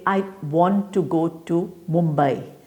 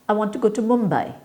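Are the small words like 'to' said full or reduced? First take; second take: full; reduced. First: Each 'to' is said in its full strong form. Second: Each 'to' is said in its reduced weak form. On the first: The speaker calls it wrong. "So you don't say" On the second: The speaker calls it right. "You say"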